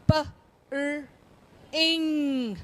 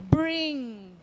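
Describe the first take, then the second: First: "P", "R", long "ing", each apart; sounded out. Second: Said in the usual way. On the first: Shown as a demonstration. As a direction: split bring into "P, R, ing". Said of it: "let's look at some words". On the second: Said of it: "then the whole word".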